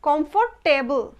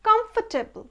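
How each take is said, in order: First: The ending is said strongly as a full 'table'. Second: The ending is weak and reduced, not full 'table'. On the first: The speaker calls it wrong. "আমরা দেখবেন গর্বের সঙ্গে বলি টেবল" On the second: The speaker calls it right. "এখানে টেবলটা এত জোর দিয়ে উচ্চারণ হবে না"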